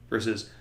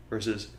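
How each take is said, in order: The two takes are said the same way.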